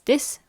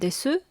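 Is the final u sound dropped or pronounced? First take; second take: dropped; pronounced. First: The word ends without a final u vowel. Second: The word ends with a clear final u vowel. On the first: The speaker calls it right. "This is pronounced as this" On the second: The speaker calls it wrong. "rather than desu"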